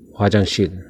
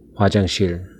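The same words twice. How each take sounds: Both takes have the same delivery.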